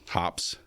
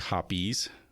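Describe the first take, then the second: First: The name is said as one syllable. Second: The name is said as two syllables. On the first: The speaker calls it wrong. "some people call it hops" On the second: The speaker calls it right. "It's actually Hoppies"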